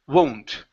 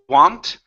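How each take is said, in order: First: The vowel sounds like 'oh'. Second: The vowel sounds like 'ah'. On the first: The speaker calls it right. "it's oh, whoa, won't. It's an oh" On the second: The speaker calls it wrong. "Instead of want, You're saying wa"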